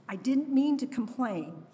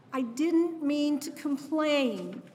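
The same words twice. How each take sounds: First: Brokenhearted mantra. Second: Slow, higher "I didn't mean to complain", "didn't" pressed hard, falling to a close; the last aching take of the apology, drawn out; brokenhearted plea. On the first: Mother apologizing to her lost baby, brokenhearted. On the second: Mother finishing her mantra to her lost baby, slow and aching. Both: Retold or imitated. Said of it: "My brokenhearted mantra".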